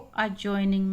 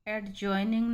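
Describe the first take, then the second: First: The D sound is silent. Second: The D sound is clearly pronounced. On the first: The speaker calls it right. "अजॉइनिंग पढ़ेंगे इसको" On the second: The speaker calls it wrong. "एडजॉइनिंग नहीं बोलेंगे इसको"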